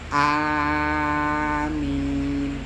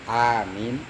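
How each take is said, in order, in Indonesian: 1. Vokal pertama dipanjangkan. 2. Vokal pertama dipendekkan. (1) "amin bil maddi, dengan kemudian membaca mad, hamzahnya" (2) "bil qasri ... Amin di di di pendek itu"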